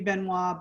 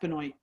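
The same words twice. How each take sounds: First: The name is said with French pronunciation. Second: The name is said with Americanized pronunciation. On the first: "The French pronunciation should be Benoit" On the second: "it was Americanized a long time ago. Actually, Canadianized, and uh, so it's pronounced Benoit"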